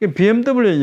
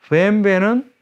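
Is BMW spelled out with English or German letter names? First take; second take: English; German. First: The letters are named the English way. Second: The letters are named the German way. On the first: "영어식 발음이고요" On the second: "독일식 발음인 거죠"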